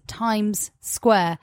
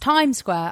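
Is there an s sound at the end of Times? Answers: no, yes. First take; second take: yes; no. First: The s sound at the end of Times is pronounced. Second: The s sound at the end of Times is dropped. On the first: The speaker calls it wrong. "I don't think people pronounce it as" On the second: The speaker calls it right. "There's no S"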